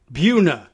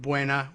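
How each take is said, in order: First: "Buna" said "Byoo-na", as in Virginia; louder "Buna" with a long "byoo". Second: "Buena" said the Spanish way, as "Bwayna"; "Buena" in its Spanish form, two syllables. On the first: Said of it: "they say, I guess". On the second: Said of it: "instead of Buena". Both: Shown as a demonstration.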